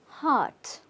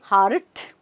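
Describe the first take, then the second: First: The word is said soft and subtle. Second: The word is said hard and strongly. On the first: The speaker calls it right. "Very soft, very subtle" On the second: The speaker calls it wrong. "you're not saying heart"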